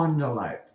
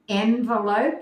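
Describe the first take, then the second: First: "envelope" starting with ON, French-style; ON-velope pronunciation. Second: "envelope" starting with EN, as in "hen"; EN-velope pronunciation. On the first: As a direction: say "envelope" as ON-vuh-lope. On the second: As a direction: say "envelope" as EN-vuh-lope. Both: Shown as a demonstration. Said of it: "Do you say envelope or envelope?".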